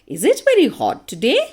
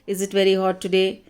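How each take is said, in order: First: It is said with a questioning tune. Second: It is said with a flat, statement-like tune.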